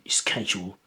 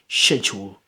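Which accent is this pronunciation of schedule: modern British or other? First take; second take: other; modern British. First: It uses a pronunciation other than modern British. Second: It uses the modern standard British pronunciation. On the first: "rather than schedule" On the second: "Standard British accent, you might hear these words pronounced schedule"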